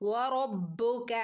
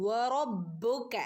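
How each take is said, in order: No difference in how they are said.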